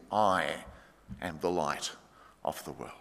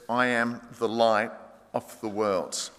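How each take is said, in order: First: I, am the light of the world said much lower and much softer, with pauses; quiet reverent statement; hushed, awed. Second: Said in the usual way. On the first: Shown as a demonstration. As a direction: let it drop to a near hush. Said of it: "It's brilliant of Jesus". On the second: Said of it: "And Jesus says".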